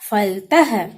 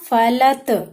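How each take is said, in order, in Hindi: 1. इसके अंत में श्वास वाली h ध्वनि है। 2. इसके अंत में श्वास वाली h ध्वनि नहीं है। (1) "मैंने लास्ट में आहा की मात्रा लगाई तो क्या हुआ बच्चों?" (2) "लिखा था यहाँ"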